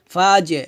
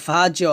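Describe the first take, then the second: First: ফা জে with the echo dropped downward, like আ বে; correct qalqalah. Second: ফা জ with the echo lifted upward like qaf; wrong qalqalah. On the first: Teacher showing students the right qalqalah, falling bounce. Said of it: "ফা জে এভাবে". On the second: Teacher demonstrating the wrong qalqalah to students, rising bounce. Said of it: "ফা জ বলা যাবে না". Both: Shown as a demonstration.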